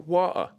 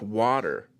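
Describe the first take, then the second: First: The T sound in the middle is dropped. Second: The T sound in the middle is clearly pronounced. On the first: This is how people over here say it. "you guys" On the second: This is how it is said back home. "There's a T in there"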